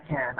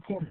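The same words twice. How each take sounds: First: Can with a full A in the middle; full form. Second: Can as a soft, short 'kin'; reduced form. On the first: Teacher shows what not to say, full-vowel can. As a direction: say can as a clear 'kan'. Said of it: "ما بقول أنا". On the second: Teacher shows the weak form, can as 'kin'. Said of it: "عم بقول". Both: Shown as a demonstration.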